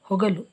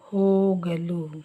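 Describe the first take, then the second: First: The first vowel is short. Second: The first vowel is long. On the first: The speaker calls it wrong. "ಇದರಲ್ಲಿ ದೀರ್ಘ ಇಲ್ಲ" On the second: The speaker calls it right. "ಈ ದೀರ್ಘ ಇರಬೇಕು"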